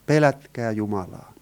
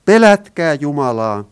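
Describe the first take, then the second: First: Said in the usual way. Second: Angel's herald call, loud; loud proclamation. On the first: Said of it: "kuulutti kovalla äänellä tätä ikuista evankeliumia". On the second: Acted. Preacher quotes the angel's command to all, loud proclamation. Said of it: "hän kuulutti kovalla äänellä".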